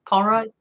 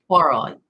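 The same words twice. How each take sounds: First: POIROT higher, as a doubtful question; unsure pronunciation. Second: POIROT said louder with a falling end; attempted pronunciation. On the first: Streamer struggling with a detective's name, POIROT tried as a question. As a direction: try POIROT questioningly, pitched up. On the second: Streamer struggling with a detective's name, POIROT tried with a fall. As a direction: attempt POIROT as a firm statement. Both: Real, not acted. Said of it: "I can't pronounce it".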